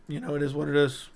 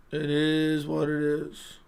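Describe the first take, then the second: First: Said in the usual way. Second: Slow, softer, stretched-out words; drawn-out repeat. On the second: Real, not acted. Streamer resigned to his hurting throat, dragging the words out slowly. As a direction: drag out IS, letting it sink.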